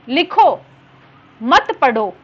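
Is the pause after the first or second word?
first. The pause comes after the first word.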